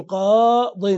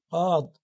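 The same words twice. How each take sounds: First: قاض drawn out slowly, ending "-in"; tanwin ending. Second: Said in the usual way. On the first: Shown as a demonstration. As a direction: stretch the long aa of قاض and close on "-din". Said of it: "بدل أن تقول القاضي تقول قاض". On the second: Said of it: "تقول قاض".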